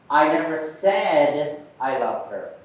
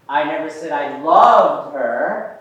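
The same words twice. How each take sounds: First: The stress falls on the word said. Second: The stress falls on the word loved. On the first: It was expressed some other way, not spoken. "Now let's put the emphasis on said" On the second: A weaker feeling was claimed instead. "I said I liked her"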